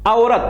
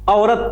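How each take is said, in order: No difference in how they are said.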